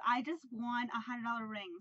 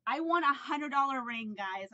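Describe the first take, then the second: First: Said in the usual way. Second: Loud, thrilled announcement; real excitement. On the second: Real, not acted. Telling viewers about her ring win, excited and louder. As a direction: shout the news to viewers. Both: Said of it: "I'm so excited right now".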